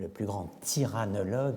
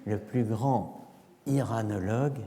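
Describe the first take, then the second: First: A t sound links grand to the next word. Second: No t sound joins grand to the next word. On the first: It sounds like a word about tyrants. "il y a des liaisons qui peuvent être le plus grand tyrannologue" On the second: It is heard as a word about Iran. "je vais faire une absence de liaison, une sorte de hiatus"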